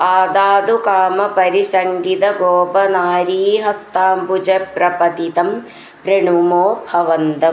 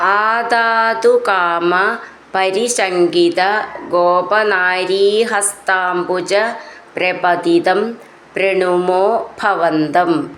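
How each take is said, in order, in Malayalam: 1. വാക്കുകൾ ഒന്നായി ചേർന്ന് ഒഴുക്കോടെയാണ് പറയുന്നത്. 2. ഓരോ വാക്കും വെവ്വേറെ, ഇടയിൽ ഇടവേളയോടെയാണ് പറയുന്നത്.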